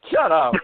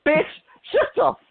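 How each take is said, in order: First: Said in the usual way. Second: Sudden high-pitched "shut up"; high yell. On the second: Real, not acted. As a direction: shriek it at someone. Shouting down a mock quote.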